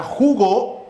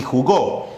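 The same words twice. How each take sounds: First: JUgo, weight on ju; stress on first syllable. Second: JuGÓ, weight on gó; jugó with the final syllable stressed; stress on last syllable. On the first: Teacher introducing two words to compare, jugo stressed on JU. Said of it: "nuestro acento en ju". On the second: Teacher introducing two words to compare, jugó stressed on GÓ. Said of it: "nuestro acento en go". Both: Shown as a demonstration.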